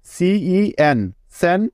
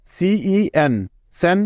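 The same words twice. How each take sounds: The two takes are said the same way.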